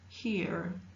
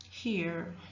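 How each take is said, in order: First: The vowel is followed by an R sound. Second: The same.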